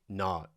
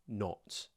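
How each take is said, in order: First: The vowel is an open, unrounded ah. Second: The vowel is short, tight and rounded.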